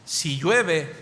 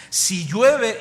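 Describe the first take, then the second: First: Said in the usual way. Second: "Si llueve" loud and higher; "Si llueve" punched loud for work; emphatic. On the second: Shown as a demonstration. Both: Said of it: "contrast work and church".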